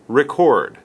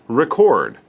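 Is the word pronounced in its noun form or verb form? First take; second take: verb; verb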